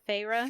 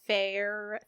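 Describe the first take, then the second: First: The name does not sound like the word fair. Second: The name sounds just like the word fair. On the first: The speaker calls it right. "but it's Feyre" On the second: The speaker calls it wrong. "I was gonna say Fair, because Alexa pronounces it Fair"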